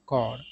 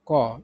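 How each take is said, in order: First: American "कॉर" with the R sounded; American pronunciation. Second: British "कॉ", ending on the vowel; British pronunciation. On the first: Teacher giving the American version, "कॉर" with audible R. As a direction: say "कॉर" ending on R, no P or S. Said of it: "अगर American उच्चारण का बात किया जाए". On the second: Teacher summing up the British rule, "कॉ" without any R. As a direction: say "कॉ" with P, S and R all silent. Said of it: "सिर्फ इसका उच्चारण होगा". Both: Shown as a demonstration.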